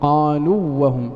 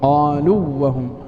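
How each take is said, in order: First: The long vowel merges into the following w. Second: The same.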